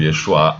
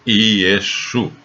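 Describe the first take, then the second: First: The name ends with an added 'a' sound. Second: The name ends on the 'u' sound. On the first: The speaker calls it wrong. "A palavra Yeshua é errada" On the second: The speaker calls it right. "a verdadeira pronúncia do nome de Jesus em aramaico é Yeshu"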